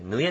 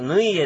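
First: A quick y glide runs straight into e. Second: A full separate i vowel comes before e. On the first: The speaker calls it right. "ぬいえじゃなくて、ぬえっていうね" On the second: The speaker calls it wrong. "どうしてもみんな、ぬいえ、ぬいえって言っちゃうんですけど"

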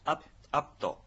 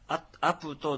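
First: The p is unreleased, with lips closed. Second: The p is followed by a full vowel. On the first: The speaker calls it right. "ちっちゃく書くアイヌ語の特殊な発音です。" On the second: The speaker calls it wrong. "アプトでなく"

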